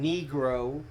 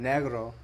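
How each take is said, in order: First: It is pronounced the English way. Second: It is pronounced the Spanish way. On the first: It is an offensive term. "negro just has a really bad connotation to it"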